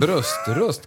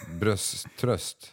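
First: "Bröströst" split as bröst-röst, slowly; corrected reading. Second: "Brösttröst" run together as bröst-tröst, comfort for the breast; muddled misreading. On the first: Shown as a demonstration. Quizmaster correcting the misread quiz word, slow corrected reading. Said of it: "kanske det står". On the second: Real, not acted. Quizmaster stumbling over the quiz word, muddled misreading. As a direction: misread "Brösttröst" with a t starting the second part.

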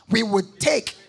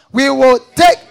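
First: Said in the usual way. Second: Louder, ringing congregation reading. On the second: Shown as a demonstration. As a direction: call it out loud together. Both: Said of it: "Read it loud".

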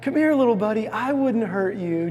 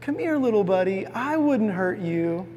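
First: Small weak coaxing. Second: A hint of a boy sweet-talking an animal; coaxing boy. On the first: Retold or imitated. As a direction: play it small and harmless to lure the tiger. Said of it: "makes himself just kinda small and weak and simple". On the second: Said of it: "he says this line where he goes".

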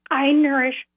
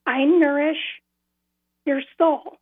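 First: "I nourish" pressed firmly, then held; weight on "I nourish" before a break; stress on I NOURISH. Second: I nourish stressed, a pause, then your soul. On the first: Shown as a demonstration. Demonstrating how the voice stressed "I nourish". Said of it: "And it was said like that". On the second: Retold or imitated. Retelling the voice, emphasizing "I nourish" then pausing. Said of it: "the first two words were emphasized".

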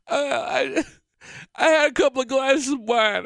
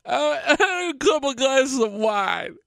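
First: High, teary mock voice of his tipsy wife; imitating tipsy wife. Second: High teary mock voice breaking into a laugh; imitating tipsy wife, laughing. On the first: Husband mimicking his tipsy wife's confession. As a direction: whine it up high like she's had wine. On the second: Husband mimicking wife repeating her confession with a laugh.

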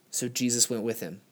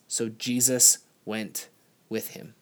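First: Said in the usual way. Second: Slow, weighty reading with stress on Jesus; preacher reads the verse slowly, leaning on Jesus; slow scripture reading. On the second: Shown as a demonstration. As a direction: read it slowly, lingering on Jesus. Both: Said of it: "it just says this".

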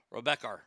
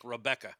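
First: Rebecca with an R sound added at the end, Rebecker; Boston R on Rebecca. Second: Said in the usual way. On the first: Shown as a demonstration. Mocking the Boston accent, adds an R to Rebecca. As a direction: tack an R onto the end of Rebecca. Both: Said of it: "add the word, the letter R to words like Rebecca".

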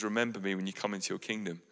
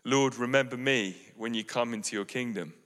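First: Much softer, quicker near-whisper plea; a faint last request, quick and soft; hushed plea. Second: Soft, hushed plea of a dying thief; moving plea. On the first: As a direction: breathe it out like a dying man. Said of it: "he just turns to Jesus and he says". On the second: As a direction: ask gently, almost breaking. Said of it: "turns to him very movingly and says". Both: Acted.

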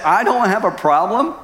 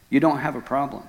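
First: High, rising disbelieving question; incredulous echo. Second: Understated calm statement; lightly voiced God, matter-of-fact; God's reply. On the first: Retold or imitated. Husband quoting God back to him, incredulous. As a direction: throw the words back, voice climbing at the end. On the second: God correcting the distraught husband, quietly matter-of-fact. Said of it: "God said".

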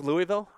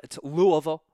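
First: Louisville said as "Lou-ee-ville", every syllable clear; wrong pronunciation. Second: Louisville said as "Loo-uh-vul", the middle swallowed; local pronunciation. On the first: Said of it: "not pronounced Louisville". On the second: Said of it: "If you've ever been in the area". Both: Shown as a demonstration.

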